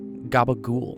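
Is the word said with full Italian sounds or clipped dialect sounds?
clipped dialect. Consonants are voiced and the final vowel is dropped. This is the Italian-American mobster form. The speaker calls it wrong. "not gabagool"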